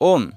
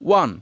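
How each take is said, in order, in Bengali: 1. এটি 'oh' স্বরধ্বনি দিয়ে বলা হয়, 'own' এর মতো। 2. এটি 'w' এবং 'uh' স্বরধ্বনি দিয়ে বলা হয়, 'one' এর মতো। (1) "কিন্তু এটা সঠিক উচ্চারণ নয়" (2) "উইনের পাস্ট ফর্মের উচ্চারণ হবে ওয়ান"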